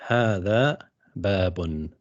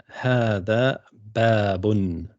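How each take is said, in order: No difference in how they are said.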